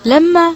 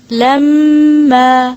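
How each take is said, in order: First: Said in the usual way. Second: لما with the م held long in the nose; لما with a long nasal ghunna on the م; nasalized doubled m. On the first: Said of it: "کس طرح پڑھیں گے اس کو؟". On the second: Shown as a demonstration. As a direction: hum the م of لما slowly before the vowel. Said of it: "یوں ہی پڑھیں گے".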